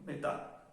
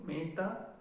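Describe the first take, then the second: First: "metà" with a short, closed E and final stress; closer, quicker E. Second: "meta" with an open E, stressed on the first syllable. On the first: Teacher contrasting metà for learners, quick closed E. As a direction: keep the E in "metà" tight and quick. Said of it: "la E es más estricta". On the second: Teacher showing learners how meta differs, open E stressed. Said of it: "la E es más abierta". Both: Shown as a demonstration.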